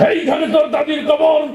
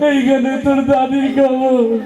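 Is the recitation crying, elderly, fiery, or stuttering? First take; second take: fiery; crying. First: It is recited in a loud, fiery speech style. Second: It is recited in a weeping, sobbing voice. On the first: A politician used to fiery speeches is reciting. "রাজনীতির মঞ্চে সবসময় গরম বক্তব্য দিয়ে অভ্যাস" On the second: An emotional student who always cries is reciting. "ও আগেই কান্দা শুরু করে দিছে"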